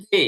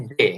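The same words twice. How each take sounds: First: "জে" drawn into a short i tail; correct J, "জেই". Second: "জে" stopping on the plain Bengali e; mistaken J, "জে". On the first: Teacher corrects the letter name, "জে" gliding to i. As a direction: say "জে" with e gliding into light i. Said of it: "এটা হবে জে". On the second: Teacher shows the wrong letter name, "জে" without an i glide. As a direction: say "জে" with a pure e, no glide. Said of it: "এটা জে না". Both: Shown as a demonstration.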